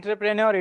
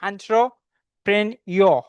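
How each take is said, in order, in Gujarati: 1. તે સામાન્ય રીતે બોલાય છે, r અવાજ સાથે. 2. તે ફ્રેંચ રીતે બોલાય છે, r અવાજ વગર. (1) "If you say entrepreneur, it is fine" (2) "It's not r. R sound pronunciation માં નથી આવતો"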